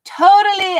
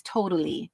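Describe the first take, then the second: First: Mock eighties valley girl. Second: Said in the usual way. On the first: Eighties slang, said twice.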